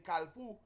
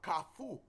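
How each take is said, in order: First: The word is said with an L sound. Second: The word is said without an L sound. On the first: The speaker calls it wrong. "they say Kalfu with a L ... that is not the correct pronunciation" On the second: The speaker calls it right. "That's the correct pronunciation"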